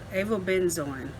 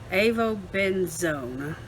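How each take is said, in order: First: The last syllable sounds like 'zoin'. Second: The last syllable sounds like 'zone'. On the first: The speaker calls it wrong. "I want to say zoin" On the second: The speaker calls it right. "but it's zone"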